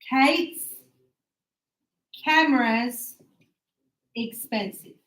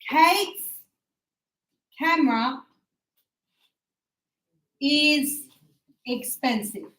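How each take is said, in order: First: The word 'is' is shortened onto 'camera'. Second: The word 'is' is said as a full word.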